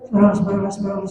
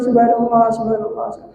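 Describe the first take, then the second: First: It is recited quickly and fluently. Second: It is recited slowly and calmly.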